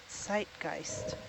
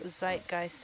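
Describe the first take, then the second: First: The word begins with a TS sound. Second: The word begins with a plain Z sound.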